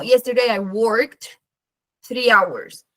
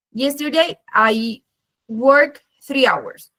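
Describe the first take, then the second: First: Worked como «workt», despacio; D final marcada. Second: Worked dicho como «work», muy lento; sin D final. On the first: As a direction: cierra worked con K y D juntas. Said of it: "siempre es muy importante". (ejemplo lento con la terminación de worked clara) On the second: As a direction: omite la terminación de worked, parando en la K. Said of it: "si yo quiero usar work". (ejemplo pausado con worked sin D final) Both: Shown as a demonstration.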